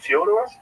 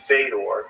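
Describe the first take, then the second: First: The name starts with a 'Fyo' glide sound. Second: The name starts with a plain 'Fe' sound. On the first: "in Russian is it Fyodor?" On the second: "some people say Fedor"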